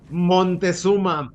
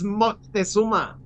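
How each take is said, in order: First: The first syllable ends with an N sound. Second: The first syllable ends with a K sound. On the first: The speaker calls it wrong. "my first mimic" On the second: The speaker calls it right. "It's Moctezuma with a C. It's not an N"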